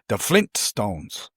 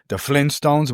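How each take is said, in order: First: It is said with the T after Flin. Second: It is said without the T after Flin. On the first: The speaker calls it right. "but it's actually" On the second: The speaker calls it wrong. "people forget about that first T"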